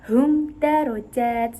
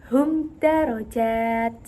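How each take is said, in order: Both takes have the same delivery.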